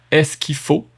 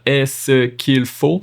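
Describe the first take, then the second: First: "Est-ce qu'il faut" squeezed to three syllables, "ès-ki-faut"; Quebec three syllables. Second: "Est-ce qu'il faut" said slowly, all four syllables. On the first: Teacher showing the Quebec three-syllable form. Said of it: "Three syllable". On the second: Teacher showing the full four-syllable form, slowly. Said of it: "Four syllable". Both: Shown as a demonstration.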